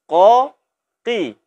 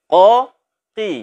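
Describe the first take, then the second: Both takes have the same delivery.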